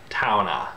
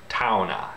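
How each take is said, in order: First: The word ends in an ah vowel. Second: The same.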